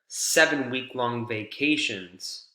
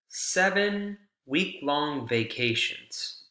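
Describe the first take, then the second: First: There is no pause after seven. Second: There is a pause after seven. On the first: One vacation lasts seven weeks. "a vacation that is seven weeks long" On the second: There are seven vacations, each one week long.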